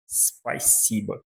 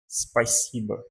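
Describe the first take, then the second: First: Spasiba drawn out syllable by syllable, softer; slow spasiba. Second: Spasiba with a tiny I sound after the S; hint an I inside spasiba; spasiba with faint I. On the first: Teacher repeats spasiba slowly for students, soft and deliberate. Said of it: "pronunciamos isso aqui como spasiba". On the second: Teacher shows the faint I in spasiba, gentle demo. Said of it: "como se aqui tivesse um I fraquinho". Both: Shown as a demonstration.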